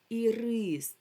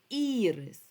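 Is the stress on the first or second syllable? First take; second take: second; first. First: The stress is on the second syllable. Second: The stress is on the first syllable. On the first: It means a caramel candy. "тобто наголос падає на «и»" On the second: It means a flower. "тоді наголос падає на перший голосний"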